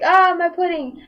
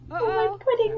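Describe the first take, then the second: First: Louder, mock-dramatic wail. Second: High, whiny imitation of a crying little brother; mock crying whine. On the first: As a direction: ham up the kid's lament for his pudding. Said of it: "He was like". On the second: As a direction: wail it like a kid crying over pudding. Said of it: "my brother starts crying".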